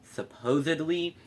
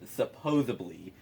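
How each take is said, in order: First: It is said with a d sound: supposedly. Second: It is said with a b sound: supposably. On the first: The speaker calls it right. "the word is supposedly" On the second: The speaker calls it wrong. "instead of supposedly"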